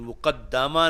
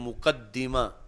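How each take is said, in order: First: The vowel after the doubled d is a. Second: The vowel after the doubled d is i. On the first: The common reading of the word. The speaker calls it wrong. "मुकद्दमा नहीं पढ़ा" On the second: The lexicographers' reading of the word. The speaker calls it right. "बल्कि मुकद्दिमा"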